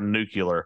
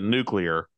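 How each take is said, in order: First: An extra u sound comes before the l. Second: No extra u sound comes before the l. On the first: The speaker calls it wrong. "he might as well be a mouth breather if he's going to say" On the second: The speaker calls it right. "there's no extra U in it"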